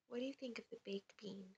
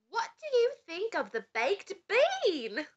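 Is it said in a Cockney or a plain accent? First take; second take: plain; Cockney. First: It is said in the speaker's plain accent. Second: It is said in a Cockney accent.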